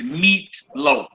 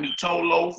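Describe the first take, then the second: First: No vowel is sounded after the t. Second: An 'oh' vowel is sounded after the t. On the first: The speaker calls it right. "So it says meat loaf" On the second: The speaker calls it wrong. "not meat toe loaf"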